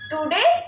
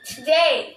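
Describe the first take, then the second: First: The first vowel is a full o sound. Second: The first vowel is reduced and weak. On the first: The speaker calls it wrong. "it sounds uh, like the we learned English for first time" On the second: The speaker calls it right. "You can say"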